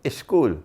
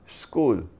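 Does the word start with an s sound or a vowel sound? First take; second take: vowel sound; s sound. First: The word starts with an added vowel sound. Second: The word starts directly with the s sound. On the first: "the Pakistani would say, school, put an alif in front" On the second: "So it's not school. You can't join S and K"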